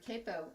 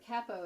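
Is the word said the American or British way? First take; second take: American; British. First: The word is said the American way. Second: The word is said the British way.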